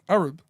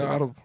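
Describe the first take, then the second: First: The word is said in an English manner. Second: The word is said in an Arabic manner. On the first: "I'm pronouncing like an Englishman"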